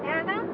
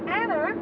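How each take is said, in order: First: The word ends in a plain vowel sound. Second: The word ends with an added R sound. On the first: The speaker calls it right. "Instead of saying Anna" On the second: The speaker calls it wrong. "There's no R there"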